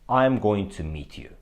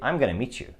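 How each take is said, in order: First: Each word is said separately and fully. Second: The words run together like one long word. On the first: The speaker calls it wrong. "Nobody speaks like that" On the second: The speaker calls it right. "Sounds like one long word"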